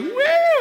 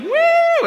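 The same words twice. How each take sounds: First: Very high, loud whoop; joining the woo. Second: Very high, loud whoop; cheering woo. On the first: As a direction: whoop along with the crowd. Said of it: "And I'm like". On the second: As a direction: whoop like a crowd of buddies. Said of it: "they're all like". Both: Retold or imitated.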